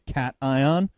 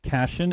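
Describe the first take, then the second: First: It sounds like 'cat', 'eye', then 'on'. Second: It rhymes with vacation, ending in 'shun'. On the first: The speaker calls it right. "So it's pronounced cat eye, and then on" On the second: The speaker calls it wrong. "It is not cation. ... it's not like vacation"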